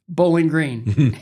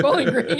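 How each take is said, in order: First: Slow, loud, drawn-out delivery; emphatic announcement. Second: High-pitched puzzled repeat; acted-out bewildered query; baffled echo. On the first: Retold or imitated. Skater pitching his hometown in two words, emphatic announcement. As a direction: declare it like a grand reveal. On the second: TV boss hearing an unknown town, baffled echo.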